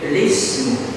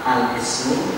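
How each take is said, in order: First: The word begins directly with 'li'. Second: The word begins with an 'al' sound. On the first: "terbaca lismu" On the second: "terbaca al-ismu"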